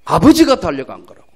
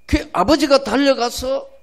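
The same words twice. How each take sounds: First: 아버지가 punched loud and falling; stress on 아버지가. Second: 아버지가 lifted high and rising. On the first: Preacher correcting the congregation, 아버지가 stressed loud. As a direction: hit the word 아버지가 hard, then let the line fall. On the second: Preacher repeating to the congregation, 아버지가 raised high. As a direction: lift 아버지가 up high, as if still asking. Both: Shown as a demonstration. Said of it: "아들이 달려간 게 아니에요".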